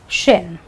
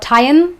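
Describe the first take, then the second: First: The ending is said as 'shun'. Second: The ending is said as 'tee-on'. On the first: The speaker calls it right. "you say shin" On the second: The speaker calls it wrong. "You don't say tion"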